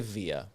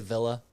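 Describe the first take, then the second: First: The middle consonant is a Y sound. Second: The middle consonant is a clear L sound. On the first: The name is treated as a Spanish word. The speaker calls it wrong. "We don't say via" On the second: The name is treated as an English word. The speaker calls it right. "If the word comes from England, don't we just say villa?"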